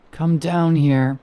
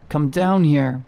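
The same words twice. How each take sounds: First: Slow, eerie rasp, hushed and far off; raspy whisper. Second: Said in the usual way. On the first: A narrator's reading. Thing in the pit luring Peter down, slow eerie rasp. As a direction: lure him down slowly in a rasp. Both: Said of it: "she said in a raspy whisper".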